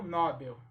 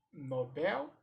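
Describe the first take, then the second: First: "Nobel" stressed on NO; "Nobel" as NO-bel, falling away; stress on first syllable. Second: "Nobel" stressed on BEL, rising; "Nobel" as no-BEL, questioning lift; stress on last syllable. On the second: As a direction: lean on the final syllable of "Nobel". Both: Shown as a demonstration. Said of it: "Como se pronuncia?".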